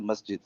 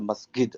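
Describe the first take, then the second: First: It is pronounced the non-Egyptian way. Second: It is pronounced the Egyptian way. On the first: It is the speaker's own pronunciation. "I say masjid" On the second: A non-scholar said it in everyday speech. "the Egyptian guy is a masjid"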